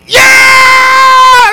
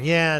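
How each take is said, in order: First: It is shouted loudly with excitement. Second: It is said flatly, without enthusiasm. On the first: The person is fully invested and thrilled. "You'll be standing there screaming at the TV" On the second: The person is not really paying attention or invested. "when you clap for your kids and you just really don't care"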